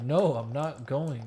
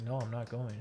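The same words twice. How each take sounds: First: Slower, louder, insistent no; a stubborn, slowed-down no; retold pissed refusal. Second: Said in the usual way. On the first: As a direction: dig in and refuse, annoyed. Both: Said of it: "'Cause I was pissed".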